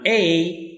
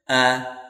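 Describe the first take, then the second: First: The word is said with a full vowel. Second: The word is said with a reduced vowel. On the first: "the strong we pronounce" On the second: "the weak we pronounce"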